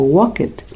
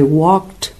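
First: The ending is said as an extra syllable. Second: The ending is said as a t sound. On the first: The speaker calls it wrong. "la tendencia es que quieren pronunciarlo como walked" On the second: The speaker calls it right. "nada más el sonido de T. Entonces, correctamente se debe decir"

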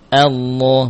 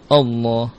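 First: The opening hamzah sounds light and thin. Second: The opening hamzah sounds heavy and thick. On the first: The speaker calls it right. "Hamzah tipis" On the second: The speaker calls it wrong. "Bukan Allah"

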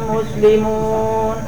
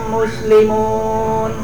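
The two takes are said the same way.

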